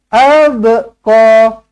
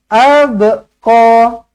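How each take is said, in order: The two takes are said the same way.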